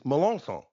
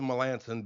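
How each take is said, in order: First: The name is said with a French pronunciation. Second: The name is said with an English pronunciation. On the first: This is the original form of the name. "the correct Francophile pronunciation of his name" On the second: This is the simpler everyday version. "just go with Melanson because it's easier"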